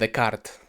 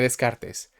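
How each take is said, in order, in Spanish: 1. El nombre se pronuncia de forma refinada. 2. El nombre se pronuncia de forma sencilla.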